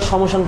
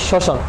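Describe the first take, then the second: First: An 'm' sound is heard in the first syllable. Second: No 'm' sound is heard in the first syllable. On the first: The speaker calls it wrong. "আমরা সমশান পড়ি না" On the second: The speaker calls it right. "আমরা পড়ি যে শ্মশান"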